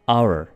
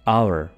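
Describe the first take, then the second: First: It is said as two syllables, like 'ower'. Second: It is said as two syllables, like 'ower'.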